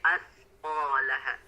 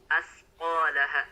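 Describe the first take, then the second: First: The consonant after a- is a soft th sound. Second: The consonant after a- is a plain s sound. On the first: The speaker calls it right. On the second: The speaker calls it wrong. "huruf sa sukun rawan membacanya menjadi huruf sin"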